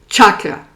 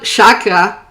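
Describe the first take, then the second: First: The word is pronounced in the Sanskrit way. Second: The word is pronounced in a French-sounding way. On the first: The speaker calls it right. "it's chakra. Because C H... it's Sanskrit" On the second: The speaker calls it wrong. "it's not chakra"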